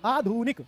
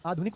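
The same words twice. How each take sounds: First: आधुनिक with a long drawn "dhoo"; wrong pronunciation. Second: आधुनिक with a short, light "dhu"; correct pronunciation. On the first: Teacher shows students the wrong vowel, drawn out. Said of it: "आधुनिक नहीं". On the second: Teacher gives students the right vowel, short. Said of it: "आधुनिक होता है". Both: Shown as a demonstration.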